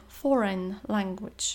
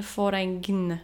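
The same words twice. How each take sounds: First: Foreign said "foren", slow; silent g. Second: Foreign said "foreign" with a g, slow; foreign, g sounded wrongly; foreign, g pronounced; wrong g spoken. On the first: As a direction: foreign language, slow and clear. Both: Shown as a demonstration. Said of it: "a nie foreign".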